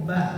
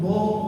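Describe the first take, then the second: First: The syllable is light and open, like ba. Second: The syllable is heavy and rounded, like bo. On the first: The speaker calls it right. "Dia tetap ba seperti biasa" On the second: The speaker calls it wrong. "ba-nya jadi tebal"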